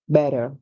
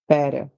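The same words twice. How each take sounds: First: The middle consonant is a soft d-like sound. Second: The middle consonant is a soft d-like sound.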